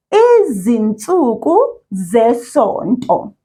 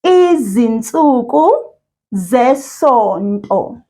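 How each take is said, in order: First: Said in the usual way. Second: Slow, each syllable drawn out; over enunciating. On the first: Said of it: "I'm going to say it one word at a time". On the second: Shown as a demonstration. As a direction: model Izinsuku zesonto for repeating. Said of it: "I'll say it first and then you repeat after me".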